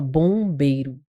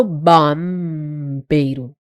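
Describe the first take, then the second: First: BOMBEIRO with nasal "bõ", no hummed M; vogal nasal correta. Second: BAMBEIRO with an open "ba" and a long hummed M; pronúncia errada exagerada. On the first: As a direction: let the O of BOMBEIRO go nasal, "bõ-beiro". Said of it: "Eu falo bombeiro". (BOMBEIRO com "õ" nasal, sem pronunciar o M) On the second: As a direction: hold the M in BAMBEIRO, "bammm-beiro". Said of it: "Eu não falo bambeiro". (BAMBEIRO com o M alongado, "bammm-beiro") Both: Shown as a demonstration.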